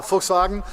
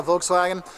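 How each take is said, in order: First: "Volkswagen" corrected to folks-vah-gen; F first and v for W in "Volkswagen"; German pronunciation. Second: "Volkswagen" as vokes-wag-en; English V and W in "Volkswagen"; American pronunciation. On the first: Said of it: "a V actually makes an F sound". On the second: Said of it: "So it's not Volkswagen". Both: Shown as a demonstration.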